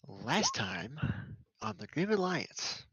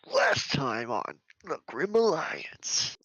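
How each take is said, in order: First: It is said in his normal voice. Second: It is said in a Dragon Ball Z announcer voice.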